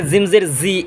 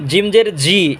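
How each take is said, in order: First: "জিম জের জি" as "zim zer zi"; mistaken buzzing Z. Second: "জিম জের জি" with a hard j from mid-tongue; slow "jim jer ji", firm j sounds; correct JIM. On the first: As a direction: demonstrate the error, z for j in "জিম জের জি". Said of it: "এইভাবেও আমরা পড়ে ফেলি". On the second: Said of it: "সঠিক উচ্চারণটা হচ্ছে জিম". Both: Shown as a demonstration.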